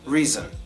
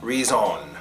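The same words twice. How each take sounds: First: The second syllable has a weak schwa vowel. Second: The second syllable has a full O vowel. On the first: "With the schwa on the O" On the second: "If it wasn't there, it would be reason"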